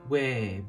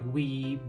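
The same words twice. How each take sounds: First: The vowel is a more open sound. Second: The vowel is a close ee sound.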